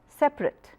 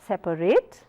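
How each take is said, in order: First: It is said with two syllables. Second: It is said with three syllables. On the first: The speaker calls it right. "two syllabic words" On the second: The speaker calls it wrong.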